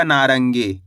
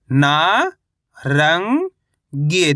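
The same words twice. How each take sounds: First: Said in the usual way. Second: ना, रंग, गे held apart, first two rising; spell-reading ना, रंग, गे slowly, piece by piece; syllable by syllable. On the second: Shown as a demonstration. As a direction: sound out ना ... रंग ... गे with gaps. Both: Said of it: "तो मिलके बन जाएगा".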